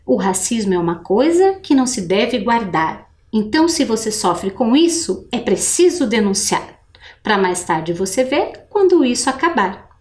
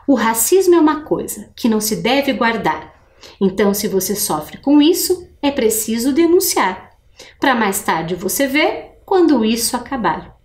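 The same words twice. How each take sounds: First: A teacher showing pupils where the rhymes fall; rhymes brought out. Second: Reading aloud. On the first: Professora lendo devagar, destacando as rimas. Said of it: "escutar bem a pronúncia pra você ver aonde que estão as rimas". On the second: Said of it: "eu vou ler de novo". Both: Shown as a demonstration.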